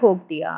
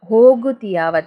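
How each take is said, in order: First: The middle vowel is dropped, making it shorter. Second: The word keeps its middle vowel, fully pronounced. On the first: This is how it is said in everyday speech. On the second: This is the fuller form of the word.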